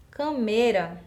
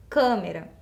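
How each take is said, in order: First: "Cameira" with the stress moved to mei; wrong stress on câmera. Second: "câmera" stressed on the nasal first syllable; correct pronunciation of câmera. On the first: Teacher repeats a word that doesn't exist, "Cameira" stressed on mei. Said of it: "é uma palavra que a gente sabe que não existe". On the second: Teacher shows how it is pronounced, "câmera" stressed on câ. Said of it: "Porque eu pronuncio câmera". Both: Shown as a demonstration.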